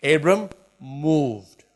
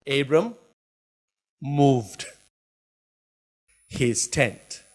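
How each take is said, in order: First: Abram drawn out, moved landing with a fall; stretched emphasis. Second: Each word set apart with long pauses; slow emphatic reading. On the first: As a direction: stretch Abram, then drop onto moved. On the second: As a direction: drag it out word by word. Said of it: "Is that what it says?". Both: Shown as a demonstration.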